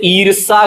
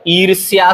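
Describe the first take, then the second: First: ईर्ष्या without y, eer-saa; wrong pronunciation. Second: ईर्ष्या with a y glide, eer-si-yaa; correct pronunciation. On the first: Teacher showing the mistake, ईर्ष्या said as eer-saa. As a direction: say ईर्ष्या as eersaa. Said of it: "गलत है". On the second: Teacher correcting it, ईर्ष्या said as eer-syaa. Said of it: "सही है". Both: Shown as a demonstration.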